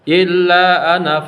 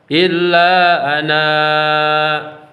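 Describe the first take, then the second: First: The final vowel is kept short. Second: The final vowel is held long. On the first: The reading continues without stopping. "ketika wasol" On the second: The reading stops on this word. "ketika wakof dibaca panjang dua harakat"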